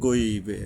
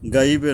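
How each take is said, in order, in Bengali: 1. প্রথম স্বরধ্বনিটি ভারী ও গোলাকার, 'o'-এর মতো। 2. প্রথম স্বরধ্বনিটি পাতলা ও খোলা, 'a'-এর মতো। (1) "মোটা করে পড়তে হয়" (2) "গাইবে নয়"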